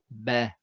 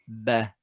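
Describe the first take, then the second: First: The ba sounds light and thin. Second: The same.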